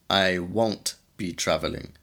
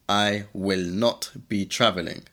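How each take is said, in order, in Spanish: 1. Las palabras 'will not' se contraen a 'won't'. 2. Las palabras 'will not' se dicen completas. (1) "de una manera más natural puedes decir won't be" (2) "En forma negativa puedes decir will not be"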